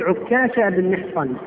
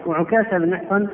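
First: Doubled, held k in عكاشة; تشديد الكاف. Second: Single, short k in وعكاشة; تخفيف الكاف. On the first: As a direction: geminate the kaf of عكاشة within the full name. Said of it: "ويصح في اسم هذا الصحابي الوجهين". (عكاشة بكاف مشددة) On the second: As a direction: keep the kaf of وعكاشة light and undoubled. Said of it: "والعكاشة بالتخفيف". (وعكاشة بكاف مخففة غير مشددة) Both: Shown as a demonstration.

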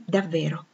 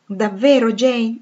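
First: Soft affirmation. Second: Louder, rising disbelief; can it really be true?; incredulous question. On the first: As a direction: answer him gently and simply. Jane answers softly. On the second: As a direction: Rochester pressing Jane in eager disbelief. Rochester asks in disbelief. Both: Acted.

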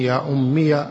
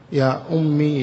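First: "أمي" ending in -miya; voweled final ya. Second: "أمي" ending in long ee; silent final ya. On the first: Teacher recapping the six forms, "أمي" said ummiya. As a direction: add a short a after the ya of "أمي". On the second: Teacher recapping the six forms, "أمي" with long ee. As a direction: say "أمي" as ummee. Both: Shown as a demonstration. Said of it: "الست السابقة".

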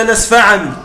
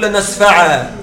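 First: لنسفعا read through with the final nun sounded; لنسفعا ending in -an as in connected recitation; لنسفعا said lasnafʕan, as read without stopping; continuous reading. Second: لنسفعا said with a stop on a long a; لنسفعا ending lasnafʕā, no nun; pausal form. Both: Shown as a demonstration. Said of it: "لو وقفت تقول".

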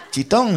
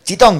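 First: CHITÓN high with a rising, questioning end; incredulous echo question. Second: High, loud mock command; shouted hush. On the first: Retold or imitated. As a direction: throw back CHITÓN as a disbelieving question. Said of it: "le preguntaron". (CHITÓN como pregunta incrédula, tono ascendente) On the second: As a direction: bark it across the cinema. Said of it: "gritó otro tipo". (orden de silencio a gritos)

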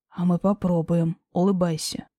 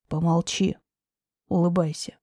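First: Lower, firm man's voice; low male voice. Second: Lower, curt man's voice; low firm command. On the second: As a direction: hush her, firmly and low. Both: Acted.

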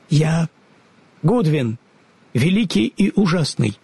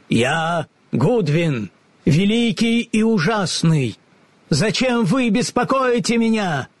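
First: Trembling. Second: High, slow, grand pronouncement; booming wizard voice. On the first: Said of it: "дрожащим голосом ответил человечек". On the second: Goodwin announces himself to the travellers, grand and booming. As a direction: play the great and terrible wizard. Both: A narrator's reading.

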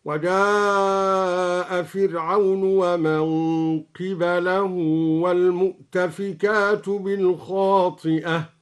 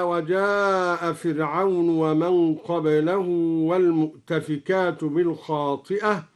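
First: قبله said qibalahu, kasra on qaf and fatha on ba, very slow recitation; qibalahu reading. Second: Said in the usual way. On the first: Shown as a demonstration. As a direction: recite قبله as qi-ba-lah, drawn out. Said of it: "هكذا". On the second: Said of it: "قرأ الدوري بكسر القاف وفتح الباء".

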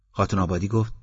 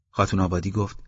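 No difference in how they are said.

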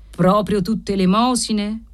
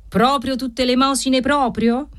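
First: Said in the usual way. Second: Higher, mocking sneer on "proprio"; satanic sneer. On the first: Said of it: "Ghignò satanicamente". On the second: Usurer sneering at the debtor's alms story. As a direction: leer over the words like a devil. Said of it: "Ghignò satanicamente don Gennaro".

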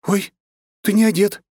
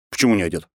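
First: Much higher, louder startled cry; shocked exclamation. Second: Said in the usual way. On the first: Acted. Anna bursts in and sees him undressed, shocked cry. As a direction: gasp it out, flustered.

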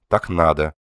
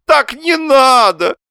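First: Said in the usual way. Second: Very high, loud, drawn-out protest; exclaiming. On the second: A narrator's reading. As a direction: wail it against her calm words. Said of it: "воскликнул Лоханкин".

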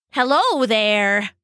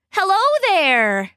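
First: Slow, shaky near-whisper; trembling whisper. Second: High, wobbly attempt at singing; awkward warble. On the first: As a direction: try to sound fierce but tremble. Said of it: "landing instead on a shaky whisper". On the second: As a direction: try to sound musical and wobble. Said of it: "landing instead on an awkward warble". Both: A narrator's reading.

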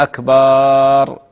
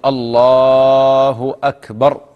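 First: Very long "akbaaaar" on أكبر; faulty call with أكبر dragged into "akbaaaar"; stretched baa, wrong. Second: Slow call, long الله and short "akbar" for أكبر; drawn-out "allaaahu", then crisp short أكبر; correct takbir. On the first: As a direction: hold the "baa" of أكبر far too long. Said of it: "يمد باء أكبر". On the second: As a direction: stretch الله loudly, keep the end of أكبر short. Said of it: "هكذا". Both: Shown as a demonstration.

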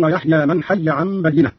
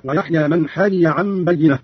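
First: Said in the usual way. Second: "حي" slowly as hayiya; unmerged double ya. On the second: Shown as a demonstration. Teacher showing Qalun's reading, "حي" said hayiya. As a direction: split "حي" into two ya sounds, hayiya. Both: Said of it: "قرأ قالون بفتح الإدغام هكذا".

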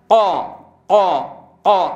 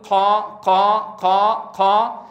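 First: قا with ق sealed tight and released voiced, no air; qaf without breath. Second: Slow قا with air leaking after each ق; breathy wrong qaf. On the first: Teacher modelling the proper way, breathless plosive ق in قا. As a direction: hit each قا as a hard, separate stop. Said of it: "فالأصل أن تقول هكذا". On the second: Teacher showing what not to say, breathy ق in قا. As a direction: let the ق of قا turn airy and aspirated. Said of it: "ولا أقول". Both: Shown as a demonstration.

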